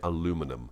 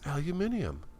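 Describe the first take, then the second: First: The word is said the American way. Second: The word is said the non-American way. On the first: "In America, we say aluminum" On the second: "In America, we don't say aluminium"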